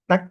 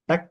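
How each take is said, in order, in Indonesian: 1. K terakhir ditahan tanpa desisan. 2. K terakhir ditahan, lalu dilepas dengan desisan. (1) "itu kita tahan dulu suara" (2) "baru kasih imbuhan sedikit desisan"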